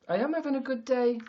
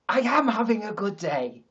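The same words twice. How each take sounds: First: It is said flatly, without conviction. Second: It is said with more conviction and emphasis. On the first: The speaker calls it wrong. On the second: The speaker calls it right.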